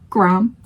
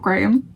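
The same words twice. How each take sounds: First: The name is said the American way. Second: The name is said the British way. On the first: The speaker calls it wrong. "Americans, could you tell me why you pronounce it Graham" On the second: The speaker calls it right. "and not Graham"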